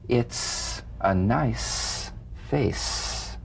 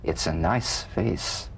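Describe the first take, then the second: First: The S sounds are held long and hissing. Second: The S sounds are short and ordinary.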